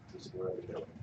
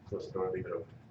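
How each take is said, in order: First: It is said quietly. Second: It is said loudly.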